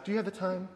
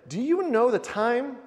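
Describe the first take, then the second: First: It sounds like a neutral, polite question. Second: It sounds like a stern, pointed warning.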